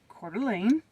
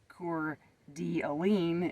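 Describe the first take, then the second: First: The name is said in a normal everyday way. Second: The name is said like a navigation computer voice.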